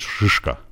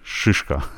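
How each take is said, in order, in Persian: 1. مصوت اول، i غلیظ و سخت است. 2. مصوت اول، i غلیظ و سخت است.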